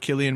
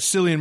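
First: The name begins with a hard K sound. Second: The name begins with a soft S sound. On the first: "hard C" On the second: "soft C"

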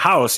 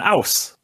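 First: The word starts with an h sound. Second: The word starts without an h sound. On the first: "But you don't call it a house" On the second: "You call it an ouse"

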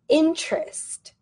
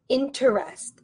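First: The middle E is silent, giving two syllables. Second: The middle E is pronounced, giving three syllables. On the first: The speaker calls it right. "We say interest" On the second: The speaker calls it wrong. "We don't say interest. Interest. That's wrong"

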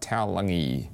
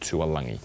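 First: The name starts with the sound 'tau'. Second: The name starts with the sound 'tua'. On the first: The speaker calls it right. "Can we get it right? Taulagi" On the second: The speaker calls it wrong. "Not Taulagi"

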